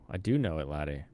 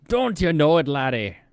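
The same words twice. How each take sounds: First: Said in the usual way. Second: Loud, high mock Irish brogue; Irish accent. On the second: Streamer hamming up an Irish fighter for chat, mock Irish brogue. Jokey Irish boxer talk, laddie.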